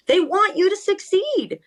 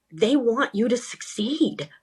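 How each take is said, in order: First: Much higher, pressing the point home; emphatic repeat. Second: Said in the usual way. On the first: Real, not acted. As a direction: say it again with real conviction. Repeats key point twice.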